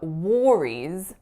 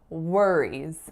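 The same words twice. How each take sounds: First: The first vowel sounds like the vowel in 'war'. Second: The first vowel sounds like the vowel in 'were'. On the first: The speaker calls it wrong. "instead of worries" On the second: The speaker calls it right. "I should be saying worries"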